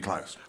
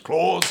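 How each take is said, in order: First: The name is pronounced the German way. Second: The name is pronounced the usual English way. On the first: This reflects the name's German background. The speaker calls it right. "it should be Klaus" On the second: This is how most people say it. The speaker calls it wrong. "Everybody says Claus"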